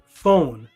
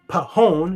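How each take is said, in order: First: It begins with a plain f sound. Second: It begins with a p then an h sound. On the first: The speaker calls it right. "you say phone" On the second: The speaker calls it wrong. "You don't say pahone"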